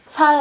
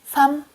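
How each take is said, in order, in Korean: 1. 이 단어는 l 소리로 끝나요. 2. 이 단어는 m 소리로 끝나요. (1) "살 아니요" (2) "두 번째 자음으로만 말해요"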